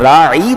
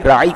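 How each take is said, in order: First: The word ends with a drawn-out lengthened vowel. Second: The word ends without a lengthened vowel. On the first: A herdsman or shepherd. The speaker calls it wrong. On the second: Please have regard for us. The speaker calls it right.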